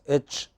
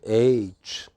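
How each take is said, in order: First: The letter is said with a North Indian pronunciation. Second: The letter is said with a standard pronunciation. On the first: The speaker calls it wrong. "many North Indian traffic controllers pronounced it as H" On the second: The speaker calls it right. "It is neither H nor H. What is it? It is H"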